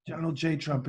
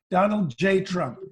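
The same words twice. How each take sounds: First: Trump, offhand. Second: Higher, louder, slow self-announcement; Trump, emphatic. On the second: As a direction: announce the name slowly and grandly. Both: Retold or imitated. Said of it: "we have Donald Trump".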